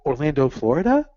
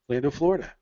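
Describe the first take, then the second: First: It is said hesitantly, like a question. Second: It is said firmly, like a plain statement. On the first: The speaker is not sure where they are. The speaker calls it wrong. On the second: The speaker knows where they are. The speaker calls it right.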